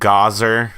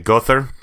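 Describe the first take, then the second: First: The name is said in a Texan accent. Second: The name is said in an Andalusian accent. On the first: "you've got Gazer for your uh, Texans" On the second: "your Andalusian where they say Gother"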